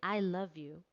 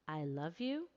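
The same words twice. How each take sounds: First: It is said as a tender statement, falling. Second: It is said as a question, rising.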